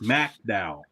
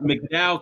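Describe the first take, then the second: First: The first syllable sounds like 'mack'. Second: The first syllable sounds like 'mick'. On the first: The speaker calls it right. "It's MacDowell. You gotta say Mac" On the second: The speaker calls it wrong. "It's not McDowell"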